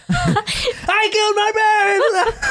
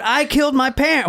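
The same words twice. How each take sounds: First: Shrieked high and slow through laughter; high screaming laugh. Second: Said in the usual way. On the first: Retold or imitated. Retelling a killer's confession, high laughing scream. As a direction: scream it, cracking up. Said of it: "why are you screaming?". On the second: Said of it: "Wait, he didn't say it like that".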